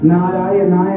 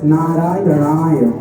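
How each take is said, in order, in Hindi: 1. यह शब्द लापरवाह, अस्पष्ट उच्चारण के साथ बोला गया है। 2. यह शब्द सावधान, सटीक उच्चारण के साथ बोला गया है। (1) "आप नारायणाय को नारायणाय बोल रहे हैं कुछ लोग, नारायणाय नहीं" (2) "नारायणाय शुद्ध उच्चारण कीजिए"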